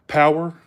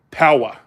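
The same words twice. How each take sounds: First: "power" with the final R sounded; Southern "power", R kept; Southern pronunciation. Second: "power" with no final R; New England "power", R dropped; Northern pronunciation. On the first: Shown as a demonstration. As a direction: say "power" ending in a clear R. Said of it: "In the South". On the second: Retold or imitated. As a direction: say "power" as "pow-uh". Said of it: "We don't say".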